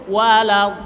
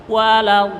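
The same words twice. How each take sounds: Both takes have the same delivery.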